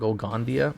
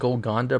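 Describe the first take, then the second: First: The name ends with a 'dia' sound instead. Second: The name ends with a plain 'da' sound. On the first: The speaker calls it wrong. "and not" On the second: The speaker calls it right.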